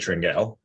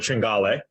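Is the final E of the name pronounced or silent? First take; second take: silent; pronounced. First: The final E is silent, not pronounced. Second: The final E is pronounced as a syllable. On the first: The speaker calls it wrong. "I would have said Tringale if I didn't know" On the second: The speaker calls it right. "You you pronounce the E"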